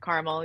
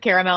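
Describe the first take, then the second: First: "caramel" said "car-mel", two syllables. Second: "caramel" said "care-a-mel", three full syllables; his way, "caramel" with the middle "a" sounded. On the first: Friend repeats her own two-syllable carmel. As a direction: her own "caramel", the middle vowel dropped. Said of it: "I said caramel". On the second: Friend mimics her brother's three-syllable caramel. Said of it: "He, he said caramel". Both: Shown as a demonstration.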